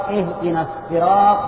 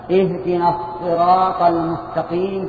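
First: "الصراط" said as "السراط", with a light s; recited with sīn. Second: "الصراط" with an emphatic, heavy ṣ sound; recited with ṣād. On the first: Teacher showing students the other Quran reading, "الصراط" with light sīn. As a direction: recite "الصراط" with a plain, thin س in place of ص. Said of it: "بالسين". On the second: Teacher showing students the first Quran reading, "الصراط" with emphatic ṣād. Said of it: "بالصاد". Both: Shown as a demonstration.

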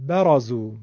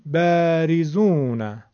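First: برازو opening on a short "ba"; short fatha. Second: Slow بریزون, first "a" stretched long and kept front; doubled fatha. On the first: Teacher giving the short example, brief "ba" in برازو. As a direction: keep the first vowel of برازو brief. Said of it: "همون فتحه رو دو برابر کردیم". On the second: Teacher doubling the fatha, long front "baa" in بریزون. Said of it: "همون فتحه رو دو برابر کردیم شد بریزون". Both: Shown as a demonstration.

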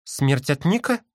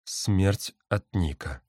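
First: "Смерть от Ника?" rising higher on Ника; questioning. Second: "Смерть от Ника" slow and falling; grave statement. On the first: Sister bird questions the threat, "Смерть от Ника?" as a rising question. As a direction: ask "Смерть от Ника?", lifting the last word. Same words asked, then stated. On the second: Bird confirms the threat, "Смерть от Ника" as a slow falling statement. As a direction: state "Смерть от Ника" slowly, dropping to the end. Same words answered as statement. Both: A narrator's reading.

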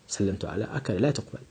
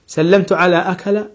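First: "سلمت على أكل" said much softer and lower, dismissed; quiet rejection. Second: "سلمت على أكل" with a rising tune on أكل; testing question. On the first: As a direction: mutter the wrong phrase and reject it. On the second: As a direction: float it up as a trial phrase. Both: Shown as a demonstration.

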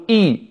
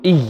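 First: إي as a clean pure "ii"; correct hamza. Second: إي squeezed with a long escape of air; pressed "iyy" trailing into air; overlong breathy y. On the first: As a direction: begin إي on a crisp glottal onset, closed i vowel. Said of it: "الذي يجب علينا نقول". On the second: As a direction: show the fault, hissing breath through the end of إي. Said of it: "نفس، طويل وعظيم". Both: Shown as a demonstration.

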